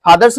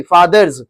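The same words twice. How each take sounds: First: फादर्स said "phaadars", breathy p-h and final s; mispronounced "phaadars" for फादर्स; wrong pronunciation. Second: फादर्स said "faadarz", true f and final z; careful "faadarz" for फादर्स; correct pronunciation. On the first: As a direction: start फादर्स with an aspirated "ph", end on "s". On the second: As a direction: start फादर्स on "f" and buzz the ending as "z". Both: Shown as a demonstration. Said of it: "फादर्स नहीं".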